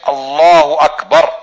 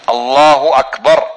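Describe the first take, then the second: Both takes have the same delivery.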